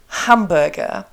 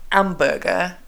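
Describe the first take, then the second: First: "hamburger" with a clearly breathed H at the start; sounded H. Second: "hamburger" French-style, H dropped; French-accented "hamburger" starting on the vowel, no breath. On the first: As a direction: puff of breath opening "hamburger". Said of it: "say it with a good English accent". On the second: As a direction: say "hamburger" as "amburger", like a French learner. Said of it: "with a French accent, you say". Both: Shown as a demonstration.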